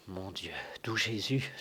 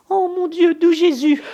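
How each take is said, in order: First: Soft, breathless fearful whisper; frightened whisper. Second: Very high, loud terrified wail; panicked cry. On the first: Old servant whispers his fear as the duel looms. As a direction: whisper the prayer under your breath. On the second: Old servant cries out in fright at the threat. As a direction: shriek to heaven in panic. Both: Acted.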